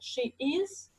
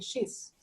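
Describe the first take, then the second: First: Both words are said fully and separately. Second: The words are contracted into one syllable. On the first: This is how a beginner would say it. "if you say at the low level" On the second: This is how a native speaker would say it. "He'll say"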